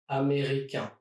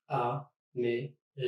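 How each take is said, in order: First: Said in the usual way. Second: Américain slowly, one syllable at a time; split into syllables. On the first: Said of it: "Here are a few other examples". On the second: Shown as a demonstration. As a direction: pause after each syllable of américain. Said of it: "try to divide words in syllables".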